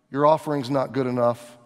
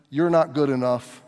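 First: "Your" hit first and hardest; stress on your. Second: "not" leaned on, spoken low; stress on not. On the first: Pastor voicing the leaders, weight on your. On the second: Pastor voicing the religious leaders, stress on not. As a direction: press down on "not". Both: Shown as a demonstration.

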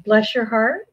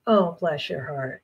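First: Said in the usual way. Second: Soft, slow, sweetly condescending "Oh, bless your heart."; sugary jab. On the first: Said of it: "it's all in the inflection and how they say it". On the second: Shown as a demonstration. Southern woman delivering a sweet insult, slow and soft. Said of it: "but when they say".

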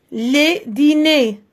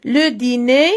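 First: "les dîners" said slowly, falling on "dîners"; teacher contrasting singular and plural; plural form, slow. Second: "Le dîner" with stress on "le" and a rising tune; teacher contrasting singular and plural; singular form. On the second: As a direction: rise on the singular. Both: Shown as a demonstration. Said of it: "الفرق أننا كنزيدوا واحد ال S".

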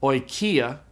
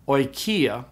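First: Oikia said slowly, "oy-kee-ah"; slow careful Greek word. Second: Oikia said again on its own, falling at the end, "oy-kee-ah"; repeated Greek word. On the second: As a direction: repeat oikia once, clearly. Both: Shown as a demonstration. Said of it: "is pronounced oikia".

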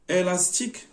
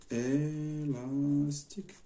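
First: Said in the usual way. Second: ÉLASTIQUE very slow and softer; ÉLASTIQUE slowly sounded out as if writing it; drawn out. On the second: Shown as a demonstration. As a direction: stretch out ÉLASTIQUE syllable by syllable, quietly. Says word while writing it.

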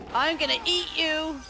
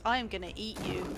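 First: High, loud mock threat; raised-pitch playful attack cry; louder playful threat. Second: Low-pitched mock threat; contained, low monster threat; playful threat. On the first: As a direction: yell it like a pouncing monster. Playful threat repeated louder, higher. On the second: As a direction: threaten to eat them, pitched down. Playful threat, first lower take.

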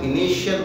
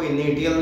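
First: इनिशियल said with sh, inishial; sh sound. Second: इनिशियल said with a hard t, initial; wrong t sound. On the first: Teacher showing students the correct sh in initial. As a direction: say इनिशियल with a clear sh sound, the right way. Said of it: "इनिशियल बोलेंगे". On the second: Teacher showing students the wrong way to say initial. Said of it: "इनिशियल नहीं बोलेंगे हम". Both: Shown as a demonstration.

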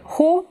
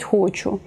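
First: «хо» said short and high, with the word cut off; clipped хо. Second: Said in the usual way. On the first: Shown as a demonstration. Teacher showing how speech shortens the word «хочу». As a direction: chop «хочу» down to a quick high «хо». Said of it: "наприклад". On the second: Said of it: "замість".

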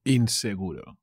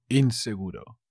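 Both takes have the same delivery.

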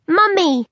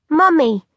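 First: High squeaky infant cry of Mummy; high, eerie baby voice; high-pitched baby voice. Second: Firm, insistent Mummy, a little higher; firmly repeated call; firm baby voice. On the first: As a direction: call out like a tiny baby. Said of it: "in its high-pitched voice". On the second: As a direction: insist like a stubborn infant. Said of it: "firmly this time". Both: A narrator's reading.

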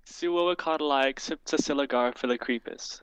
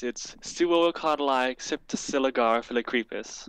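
First: "Suocotyli Cryptocilligar Philocrepus" as supercalifragilistic reversed; backwards speech. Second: "Suocotyli Cryptocilligar Philocrepus" as supercalifragilistic said backwards; backwards speech. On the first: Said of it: "One more time?". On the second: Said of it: "And to say it backwards". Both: Shown as a demonstration.

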